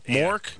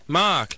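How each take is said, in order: First: The vowel sounds like 'Mork'. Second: The vowel sounds like 'Mark'. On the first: This is how others hear and repeat the name. The speaker calls it wrong. "they go, like Robin Williams in that show" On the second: This is how the owner says the name. The speaker calls it right. "And I'm like, no"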